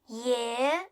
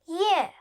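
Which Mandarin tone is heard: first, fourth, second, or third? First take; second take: second; fourth. First: The pitch rises from middle to high. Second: The pitch falls sharply from high.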